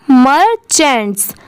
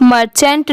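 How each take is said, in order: First: मर्चेंट्स in two parts, मर-चेंट्स, ending on स; final s sounded. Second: मर्चेंट ending on ट, no final स; wrong reading. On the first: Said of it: "last में स की sound ज़रूर आएगी". (मर्चेंट्स के अंत में स की आवाज़ साफ़ बोलें) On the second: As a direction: read मर्चेंट without the closing s sound. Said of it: "सिर्फ मर्चेंट नहीं पढ़ेंगे". (मर्चेंट के अंत में स की आवाज़ छोड़कर बोलें) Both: Shown as a demonstration.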